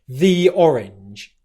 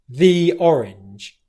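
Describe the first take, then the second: First: The word 'the' is long and stressed. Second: The same.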